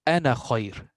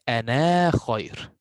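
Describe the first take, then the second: First: The final vowel of ana is short. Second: The final vowel of ana is long. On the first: The speaker calls it right. "No alif here. This is completely silent because I went forward" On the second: The speaker calls it wrong. "I did not say"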